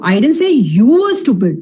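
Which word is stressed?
you. The word 'you' carries the main stress. Someone else was meant, not the listener. "I was talking about somebody else, not you"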